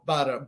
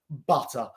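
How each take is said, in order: First: It is said in an American accent. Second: It is said in a British accent. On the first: "mi acento no es tan bien en americano" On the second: "in British English, I would pronounce it butter"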